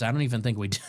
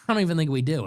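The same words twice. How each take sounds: First: Said in the usual way. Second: Said again through a laugh; amused, laughing repeat. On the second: Real, not acted. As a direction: chuckle the repeat at yourself. Repeats line, then laughs.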